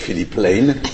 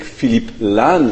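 First: The name is said with a British accent. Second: The name is said with a French accent. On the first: "the British would say" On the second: "the French would say"

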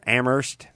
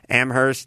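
First: The h in the second syllable is silent. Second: The h in the second syllable is pronounced. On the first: The speaker calls it right. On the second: The speaker calls it wrong.

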